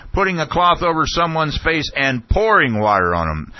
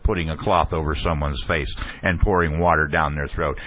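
First: High-pitched imitated outburst; Ashcroft shouting. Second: Said in the usual way. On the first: Official repeating a questioner's words back, imitated shouting. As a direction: throw the words back in a raised mock shout. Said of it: "and he was shouting". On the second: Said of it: "And the questioner said".

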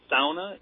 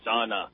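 First: "sauna" with an OW in the first syllable; sauna as "SOW-na". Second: "sauna" with an open AH in the first syllable; sauna as "SAW-na". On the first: Asking if the dictionary is wrong, "sauna" said SOW-na. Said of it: "they say sauna". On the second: Quoting Merriam-Webster, "sauna" said SAW-na. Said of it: "and they say sauna". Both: Shown as a demonstration.

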